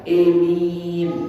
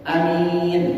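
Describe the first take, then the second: First: The first vowel leans toward e. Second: The first vowel is an open a. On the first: "membacanya dengan imalah" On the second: "Dua-duanya ini mah masyhur"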